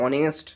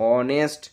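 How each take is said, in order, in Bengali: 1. শব্দটি স্বরধ্বনি দিয়ে শুরু হয়। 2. শব্দটি স্বরধ্বনি দিয়ে শুরু হয়।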